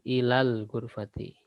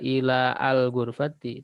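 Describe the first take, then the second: First: The vowel of 'al' is dropped and linked. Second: The vowel of 'al' is pronounced separately. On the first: The speaker calls it right. "tapi langsung" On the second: The speaker calls it wrong.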